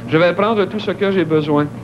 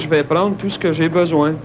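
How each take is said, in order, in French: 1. Les e non accentués sont entièrement prononcés. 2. Les e non accentués sont complètement supprimés.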